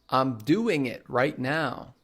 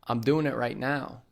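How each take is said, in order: First: The g at the end of doing is pronounced. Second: The g at the end of doing is dropped. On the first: "Instead of saying" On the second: "we'll say"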